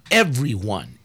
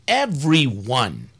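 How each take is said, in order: First: Everyone said low and firm; emphatic everyone. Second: Everyone drawn out slowly; slow emphatic repeat. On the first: Pastor to listeners, stressing everyone. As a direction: lean hard on everyone. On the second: Pastor to listeners, repeating everyone slowly. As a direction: stretch out everyone for weight. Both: Real, not acted. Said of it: "A pastor has to investigate".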